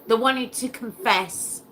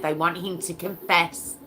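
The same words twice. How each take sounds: First: Want pushed higher and a bit louder; stress on want. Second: Said in the usual way. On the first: Real, not acted. Host telling listeners what they want, stress on want. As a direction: lean hard on the word want, outraged. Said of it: "repeats the point, emphatic". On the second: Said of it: "repeats the point".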